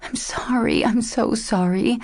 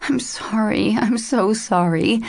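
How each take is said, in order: First: Tortured whisper. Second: Broken whisper. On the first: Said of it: "she whispered in a tortured voice". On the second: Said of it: "she whispered brokenly". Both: A narrator's reading.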